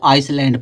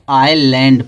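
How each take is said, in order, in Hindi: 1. “s” की ध्वनि बीच में बोली जाती है। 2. “s” की ध्वनि पूरी तरह छोड़ दी जाती है। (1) "कुछ लोग इसको आइसलैंड पढ़ते हैं" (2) "यस क्या रहेगा? साइलेंट रहेगा"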